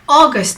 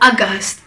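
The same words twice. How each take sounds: First: The word has an English pronunciation. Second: The word has an Urdu pronunciation. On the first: "it's okay to say it in an English pronunciation" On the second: "in Urdu, actually the pronunciation is a bit different"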